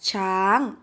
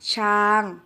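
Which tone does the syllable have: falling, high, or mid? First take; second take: high; mid. First: The syllable has a high tone. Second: The syllable has a level mid tone. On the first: "เสียงตรี" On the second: "เสียงสามัญ"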